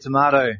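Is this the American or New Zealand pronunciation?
New Zealand. It is said with a New Zealand pronunciation. The speaker calls it right. "to say tomato"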